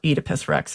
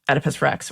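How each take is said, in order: First: Oedipus is said the British classicist way. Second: Oedipus is said in the speaker's everyday pronunciation.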